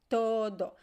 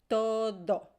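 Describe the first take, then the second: No difference in how they are said.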